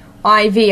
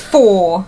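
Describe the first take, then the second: First: It is read as the letters I and V. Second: It is read as the number four. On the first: The speaker calls it wrong. "don't you know Roman numerals?" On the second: The speaker calls it right. "it's 4"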